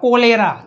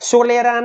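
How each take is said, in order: First: The word begins with a k sound. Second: The word begins with an s sound. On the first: The speaker calls it right. "હો કોલેરા" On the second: The speaker calls it wrong. "સોલેરા નહીં"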